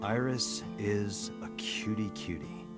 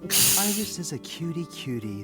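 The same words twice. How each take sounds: First: It is said flatly, without enthusiasm. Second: It is said warmly, with real feeling.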